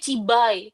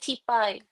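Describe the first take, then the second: First: The middle consonant is a voiced B sound. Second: The middle consonant is an unvoiced P sound. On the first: This is how the word is written. "tulisannya Cibai" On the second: This is how the word is actually read. "tapi kita bacanya Cipai"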